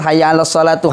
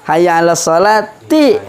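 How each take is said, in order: First: The last word ends with an u vowel. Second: The last word ends with an i vowel. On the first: The speaker calls it wrong. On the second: The speaker calls it right. "Ada harfu jar ... Maka dibaca ti"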